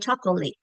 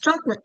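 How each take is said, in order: First: Every written vowel is pronounced fully. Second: The unstressed vowels are reduced or dropped. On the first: "you might say chocolate to help them" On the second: "it's pronounced chocolate"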